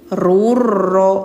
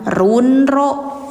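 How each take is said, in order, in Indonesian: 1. Bunyi n menyatu menjadi bunyi r ganda. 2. Ada bunyi n yang jelas sebelum r. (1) "tapi rurro" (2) "Jangan runro ya"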